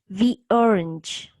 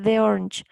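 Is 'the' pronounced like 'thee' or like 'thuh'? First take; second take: thee; thuh. First: 'The' is said with a long 'ee' vowel. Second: 'The' is said with a short 'uh' vowel. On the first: The speaker calls it right. "cuando digo D es porque la siguiente palabra es una vocal" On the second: The speaker calls it wrong. "para que no me suene the orange"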